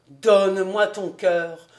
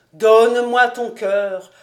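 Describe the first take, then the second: First: Mock-lamenting plea; lamentable plea. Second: Louder mock-mournful wail; louder lamenting plea. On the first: Fritz lamenting his love song, mock-mournful. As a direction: moan it like a lovesick man. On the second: Fritz lamenting his love song, louder mock wail. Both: A narrator's reading. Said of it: "d'un ton lamentable".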